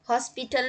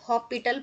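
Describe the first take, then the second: First: The s sound is pronounced in the word. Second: The s sound is left silent in the word. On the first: The speaker calls it wrong. "हॉस्पिटल नहीं पढ़ते हैं इसको" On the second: The speaker calls it right. "एस silent होता है"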